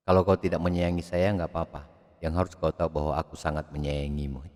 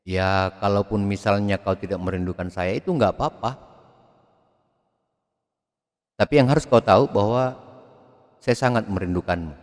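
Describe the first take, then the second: First: Softer and quicker, almost murmured; a soft tender confession; hushed romantic inflection. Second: Lifting on nggak and yang like a tender plea; lilting, coaxing lover's line; romantic inflection. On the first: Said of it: "Gaya-gaya infleksi semua". (bisikan mesra yang lembut) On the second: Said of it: "kita banyak dipengaruhi oleh gaya-gaya infleksi". (intonasi merayu yang naik-turun) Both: Shown as a demonstration.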